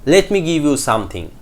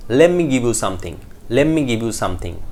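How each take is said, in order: First: "let me" with the t sounded; full form. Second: "Let me" as "lemme", t dropped; reduced form. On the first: Teacher gives the sentence before reducing it, full. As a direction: keep the t in "let me". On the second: Teacher puts the reduced phrase in a sentence, linked. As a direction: run "Let me" into one word. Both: Shown as a demonstration. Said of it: "Let me becomes let me".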